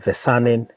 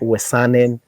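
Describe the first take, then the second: First: The name begins with a V sound. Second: The name begins with a W sound. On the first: "in Dutch the W they pronounce it V" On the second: "I have to say it in uh, English way"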